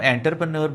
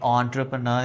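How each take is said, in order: First: The word begins with an 'en' sound. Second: The word begins with an 'on' sound. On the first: The speaker calls it wrong. "आमतौर पर हम एंटरप्रनर बोलते हैं" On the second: The speaker calls it right. "तो ये ऑन्ट्रप्रनर है"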